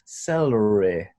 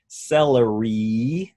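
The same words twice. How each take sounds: First: The final vowel is a short I sound. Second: The final vowel is a long E sound. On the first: This is the target accent's way of saying it. "Here we want celery, celery, re. So almost like the I in bit or chip" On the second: This is the American way of saying it. "Americans would say celery with like a long E"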